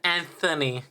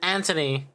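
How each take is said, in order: First: The middle sound is a 'th' sound. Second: The middle sound is a plain 't' sound. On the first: This is the speaker's own regional way of saying it. "I pronounce it Anthony" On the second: This is how someone else says the name. "Fez pronounced it Anthony"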